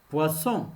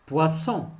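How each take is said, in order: Both takes have the same delivery.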